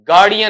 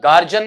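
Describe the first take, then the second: First: The middle consonant is a d sound. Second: The middle consonant is a j sound. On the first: The speaker calls it right. "बल्कि बेटा वहां पर क्या है, गार्डियन है आपका" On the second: The speaker calls it wrong. "गार्जियन नहीं है"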